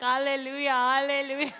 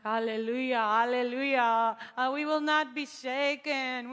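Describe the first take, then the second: First: Hallelujah. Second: Loud, slow declaration of faith; loud praise. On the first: Rain starts, mock-triumphant praise. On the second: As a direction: proclaim it boldly in the rain. Walking in rain, declaring faith. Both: Retold or imitated.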